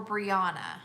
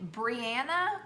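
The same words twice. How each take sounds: First: "Brianna" with a broad ah; broad-A pronunciation. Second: "Brianna" with A as in apple; short-A pronunciation. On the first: Host offers a viewer the other pronunciation, broad-A Brianna. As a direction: say "Brianna" as Bree-AH-nuh. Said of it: "do you pronounce your name". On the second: Host asks a viewer how her name's said, short-A Brianna. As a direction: say "Brianna" as Bree-ANN-uh. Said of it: "With an A like an apple". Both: Shown as a demonstration.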